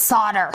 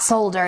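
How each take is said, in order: First: "solder" said as SAH-der; "solder" rhyming with fodder; corrected pronunciation without L. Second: "solder" said as SOLE-der; "solder" with long O and L; rejected pronunciation with L. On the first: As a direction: say "solder" with a silent L. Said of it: "It's not solder". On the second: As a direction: say "solder" with the L sounded. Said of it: "there is an L in there". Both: Retold or imitated.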